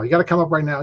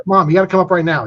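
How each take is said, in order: First: Said in the usual way. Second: Put-on louder, urgent child's plea; a kid begging mom to come right now; excited kid. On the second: Excited son calling mom.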